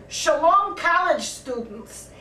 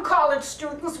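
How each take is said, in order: First: Greeting in a Yiddish accent. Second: Said in the usual way. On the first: Shown as a demonstration. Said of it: "with a Yiddish accent". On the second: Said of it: "It's welcome".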